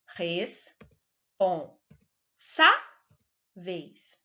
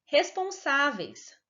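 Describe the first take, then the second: First: "Responsáveis" very slowly split into res, pon, sá, veis, with SÁ raised; slow sounding-out of "Responsáveis" with long pauses; syllable by syllable. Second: Said in the usual way. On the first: Shown as a demonstration. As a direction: break "Responsáveis" into four pieces, lifting SÁ. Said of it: "a sílaba tônica é a penúltima". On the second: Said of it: "Vamos ver exemplos".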